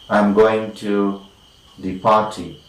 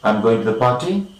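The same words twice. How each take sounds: First: The voice falls at the end. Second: The voice rises at the end. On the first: It states a fact. "We have a statement" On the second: It asks a question. "we are using rising tune or rising intonation"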